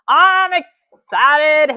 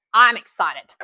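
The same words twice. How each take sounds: First: Drawn out very slow, higher and louder; excited. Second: Excited. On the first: Telling the viewers she's thrilled, a slow drawn-out squeal. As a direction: stretch it out with real glee. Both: Real, not acted.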